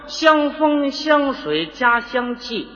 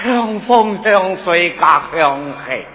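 First: It is said in standard Mandarin. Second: It is said in Cantonese with strong breath.

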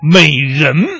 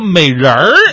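First: The word ends without an r-coloured sound. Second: The word ends with an r-coloured sound. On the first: It evokes a grand, classical image of a beauty. The speaker calls it right. "这是大气的形象" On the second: It sounds flirtatious and sleazy. The speaker calls it wrong. "错误是在儿化音上"

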